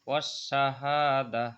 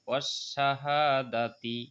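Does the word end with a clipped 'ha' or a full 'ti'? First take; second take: clipped ha; full ti. First: The word ends clipped on 'ha' and stops. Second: The word ends in 'ti' and flows onward. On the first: The reciter pauses for breath here. "এটা ওয়াকফ করলে হা হয়ে যাবে" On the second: The reciter continues without stopping. "যদি আমি দম না ফেলাই, এক এখানে না থামি"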